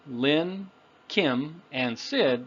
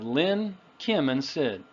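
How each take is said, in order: First: The names are separated clearly with pauses. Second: The names are run together smoothly. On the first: The speaker is irritated at having to repeat it. "you can be clearer... sounds like you're a little irritated" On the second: It is a normal, neutral listing. "it usually brings the words together"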